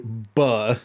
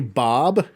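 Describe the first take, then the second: First: The syllable has a reduced 'uh' vowel. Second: The syllable has a full open 'o' vowel. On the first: "or do you say buh" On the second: "do you say Bob"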